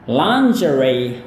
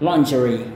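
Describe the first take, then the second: First: It is said in an American English accent. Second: It is said in a British English accent. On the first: "Sedangkan gaya Amerika" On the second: "cara orang Inggris melafalkan kata yang satu ini adalah"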